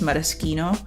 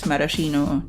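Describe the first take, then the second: First: The word is given an Italian-style pronunciation. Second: The word is given an English-style pronunciation. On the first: "if you want a lean Italian, it's maraschino" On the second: "I have been pronouncing as maraschino cherries for the longest time"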